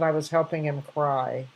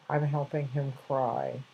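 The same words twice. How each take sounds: First: Said in the usual way. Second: Softer and slow, almost hushed; tender retelling. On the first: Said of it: "He said". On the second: Retold or imitated. A grandmother repeating the boy's words to listeners, softly and slowly. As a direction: let the child's words land gently, slowly. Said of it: "And this little boy said".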